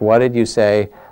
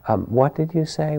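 First: The voice sounds annoyed and challenging. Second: The voice sounds open and curious. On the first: The speaker feels insulted and wants to prove they are right. The speaker calls it wrong. "Like it's, you know, was that an insult, or, you know, you're a little bit annoyed" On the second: The speaker wants to listen and understand. The speaker calls it right. "the very same words without that tone of, you know, I'm going to prove I'm right and the aggression that's in it"

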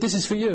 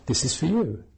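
First: It sounds curt and dismissive. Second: It sounds warm and friendly.

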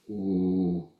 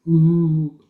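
First: The hoot is low in pitch. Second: The hoot is high in pitch. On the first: One owl is calling. "One was lower voice" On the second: The other owl is answering. "One was higher"

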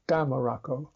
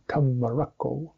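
First: The first syllable is stressed and the rest runs on quickly. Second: Syllables keep their own weight without one stressed syllable. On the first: "Often in British English, it's the first syllable" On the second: "say Dhammarakko"

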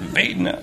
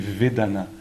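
First: It is said with a Southern American accent. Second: It is said with a French accent.

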